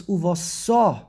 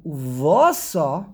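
First: Uvasa slowed, weight on the final syllable; end-stress Uvasa for the future tense. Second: Uvasa with the va punched and drawn out; stress on the beis. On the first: Teacher showing the future tense, Uvasa stressed on its last syllable. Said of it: "the end of the word". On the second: Teacher showing the past tense, Uvasa stressed on the va. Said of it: "now goes on the base". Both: Shown as a demonstration.

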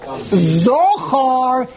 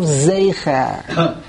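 First: "Zochar" said ZAW-khar, slow and drawn out; mistaken vowels. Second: "zecher" said ZAY-kher, slowly; correct vowels. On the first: Teacher showing Yoav's mistake, slow round-vowelled "Zochar". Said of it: "that's why he made a mistake". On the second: Teacher giving what was meant, slow "zecher" as ZAY-kher. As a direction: give "zecher" a long "ay" and a short ending. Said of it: "instead of zecher". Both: Shown as a demonstration.

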